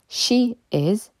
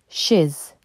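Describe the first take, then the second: First: Two separate full words are said. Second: The words are merged into one short syllable. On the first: "She is devient she's" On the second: "devient she's"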